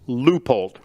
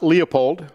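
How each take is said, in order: First: It is said the other way, as Leupold. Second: It is said like the name Leopold. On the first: The speaker calls it right. "It's Leupold" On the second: The speaker calls it wrong. "It's not Leopold"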